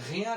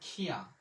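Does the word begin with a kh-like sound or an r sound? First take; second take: r sound; kh-like sound. First: The word begins with a Bengali-style r sound. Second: The word begins with a rough kh-like sound. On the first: The speaker calls it right. "রিয়া রে" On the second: The speaker calls it wrong. "যখন বলবেন খিয়া"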